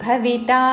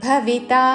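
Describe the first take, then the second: The two takes are said the same way.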